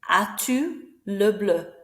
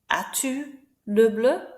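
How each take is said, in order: Both takes have the same delivery.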